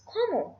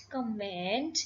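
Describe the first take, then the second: First: "comment" as "KOH-mo", final NT silent; higher-pitched "comment", ending on an open O; correct French pronunciation. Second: "comment" with an English-style sounded final NT; wrong pronunciation. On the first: Teacher correcting the first word, French pronunciation. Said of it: "it is". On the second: Teacher showing learners the mistake, wrong pronunciation. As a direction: say "comment" like "command", ending on NT. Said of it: "It is not comment". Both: Shown as a demonstration.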